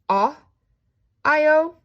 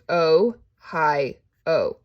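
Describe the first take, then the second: First: The first vowel is a short ah sound. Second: The first vowel is a long o sound. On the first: The speaker calls it wrong. "Do I go ah, I, o? No" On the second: The speaker calls it right. "because all of those are long"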